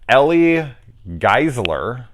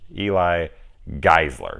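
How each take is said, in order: First: The first name sounds like 'Ellie'. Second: The first name sounds like 'Eli'. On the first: The speaker calls it wrong. "if I do pronounce your name wrong, which I kind of already did on this one" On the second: The speaker calls it right. "like Eli Roth, E L I"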